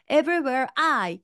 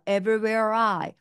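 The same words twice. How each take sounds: First: I is said separately after a break. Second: The r sound runs smoothly into I. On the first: The speaker calls it wrong. "힘들어요" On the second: The speaker calls it right. "R을 그대로 끌어와서 ... 훨씬 쉬워요"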